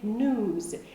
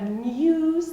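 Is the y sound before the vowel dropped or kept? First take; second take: dropped; kept. First: No y sound comes before the vowel. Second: A y sound comes before the vowel. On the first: "they say news" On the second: "Instead of news"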